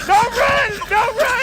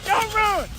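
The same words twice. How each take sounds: First: Shouted call. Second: Said in the usual way. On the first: Real, not acted. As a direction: call it out across the room. Cheering fighters, repeated call.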